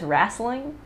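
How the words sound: It is said with a Southern pronunciation. "He says wrestling"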